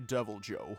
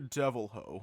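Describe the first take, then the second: First: The second word starts with a hard J sound. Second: The second word starts with an H sound. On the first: "It has a hard J" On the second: "I don't know how to pronounce it"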